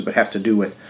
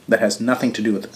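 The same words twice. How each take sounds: First: Has lifted and pressed; stress on has. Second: Nothing pressed, falling at the end; stress on nothing. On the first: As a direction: contrast by hitting has. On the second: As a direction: lean on the word nothing. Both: Real, not acted.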